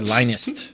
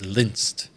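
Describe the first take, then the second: First: The name begins like 'Linus'. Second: The name does not begin like 'Linus'. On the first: "like Linus from from the Peanuts gang" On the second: "That's how I'm pronouncing it"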